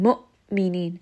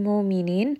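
First: The hamza is cut off with an abrupt stop. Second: The hamza is drawn out like a long vowel. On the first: The speaker calls it right. "that abrupt stopping of the sound is actually what is giving that hamza the proper sifat" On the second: The speaker calls it wrong. "Make sure you're not rolling this around in the throat or bringing this up into the jowf, otherwise it will sound like a med"

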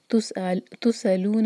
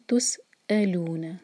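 First: The consonant sound is blurred and not distinct. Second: The consonant sound is crisp and clearly articulated. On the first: The speaker calls it wrong. "تسألون نہیں کہیں گے" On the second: The speaker calls it right. "اس کا جو مخرج ہے وہ کلیئر آنا چاہیے"

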